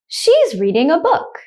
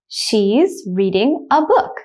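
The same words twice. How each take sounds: First: The sentence is spoken at normal speed. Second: The sentence is spoken slowly. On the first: "The second time I will say it at a normal speed" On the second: "The first time I will say it slowly"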